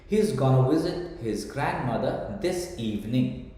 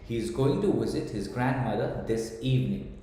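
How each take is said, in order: First: Going to is squeezed into one short word. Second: Going to is said as two full words.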